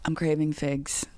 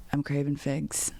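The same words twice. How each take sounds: First: Imitating Shane. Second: Imitating Shane again. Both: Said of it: "Let me do an impression".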